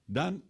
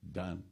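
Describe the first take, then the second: First: DONE rising high as a question. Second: DONE dropped low and softer; settled answer. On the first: Brahmaji checking with Saraswati, questioning. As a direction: ask "Done?" with a lifted pitch. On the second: Saraswati answering Brahmaji's request, settled. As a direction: answer "Done." quietly with finality. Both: Acted.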